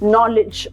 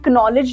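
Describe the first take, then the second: First: The K sound is silent at the start. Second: The K sound is heard at the start. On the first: The speaker calls it right. "we read it as knowledge only" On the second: The speaker calls it wrong. "हम इसे knowledge नहीं बोलते हैं"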